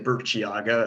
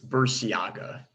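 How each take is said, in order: First: The name is said as if it were Italian. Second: The name is said the Basque way. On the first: The speaker calls it wrong. "as if it's Italian" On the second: The speaker calls it right. "It's a Basque name"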